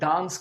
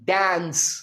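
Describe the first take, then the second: First: The vowel is a long open 'ah' sound. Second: The vowel is a flat 'a' as in cat. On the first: "British English में हम इसे डांस कहते हैं" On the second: "American English में डांस को पता है क्या कहेंगे? इसे कहेंगे डांस"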